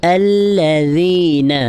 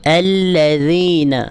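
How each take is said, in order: Both takes have the same delivery.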